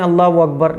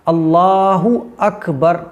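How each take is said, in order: First: Allah runs into Akbar without a linking vowel. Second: Allah ends in an 'u' sound before Akbar. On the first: The speaker calls it wrong. "कुछ लोग कहते हैं अल्लाह अकबर, ये गलत है" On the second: The speaker calls it right. "तो ये सही प्रोनाउंसिएशन है"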